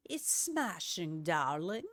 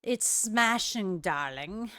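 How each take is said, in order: First: Quiet, slow posh British "It's smashing, darling"; softer posh British accent. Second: Slow, drawn-out posh British "smashing, darling"; a light posh British accent, savouring "smashing". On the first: The vlogger repeats her joke line in a soft posh British accent. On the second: A vlogger to her viewer, in a mild posh British accent. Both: Shown as a demonstration. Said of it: "kind of an accent that I did".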